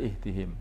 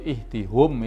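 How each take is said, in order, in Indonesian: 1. Suku kata terakhir punya vokal 'i': him. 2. Suku kata terakhir punya vokal 'u': hum. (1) "tapi yang benar ihtihim" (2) "Kalau ihtihum itu kesulitan"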